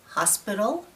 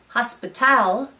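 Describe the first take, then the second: First: The stress falls on the first syllable. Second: The stress falls on a later syllable. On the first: The speaker calls it right. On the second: The speaker calls it wrong.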